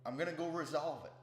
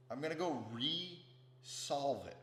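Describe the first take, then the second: First: Said in the usual way. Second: Re-solve split in two, RE drawn out slowly; stress on RE. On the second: Shown as a demonstration. Vowing to work on that energy again, re-solve said slowly as two words. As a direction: stretch the RE, then land solve separately. Splits the word to show meaning.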